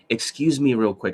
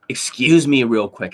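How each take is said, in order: First: It is said in a calmer tone. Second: It is said in an angry tone.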